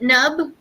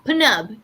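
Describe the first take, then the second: First: The name starts with an n, p silent. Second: The name starts with a sounded p. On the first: "Instead of the P being silent" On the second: "they actually say it like that"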